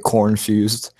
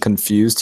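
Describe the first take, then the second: First: The first syllable is said with an r sound. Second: The first syllable is said without an r sound. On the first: "he would say cornfused" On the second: "instead of saying confused"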